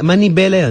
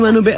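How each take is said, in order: First: The second vowel is an 'i' sound. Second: The second vowel is an 'u' sound. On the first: The speaker calls it right. "Manibela yun" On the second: The speaker calls it wrong. "Hindi manubela"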